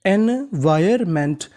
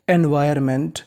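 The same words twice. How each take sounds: First: एनवायरमेंट slow, each part stretched; syllable-by-syllable. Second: Said in the usual way. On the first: Shown as a demonstration. Teacher assembles the word for learners, syllable-by-syllable. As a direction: say एनवायरमेंट piece by piece. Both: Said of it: "meaning बनी".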